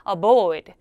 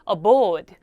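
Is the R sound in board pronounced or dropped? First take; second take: dropped; dropped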